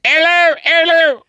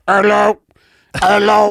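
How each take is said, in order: First: Much higher, loud bullhorn hello; louder megaphone. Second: Loud, high bullhorn hello; through a megaphone. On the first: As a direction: crank the volume up and call. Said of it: "and then I'd be like". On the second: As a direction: test the bullhorn, calling out. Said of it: "I'd be like". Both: Pretend.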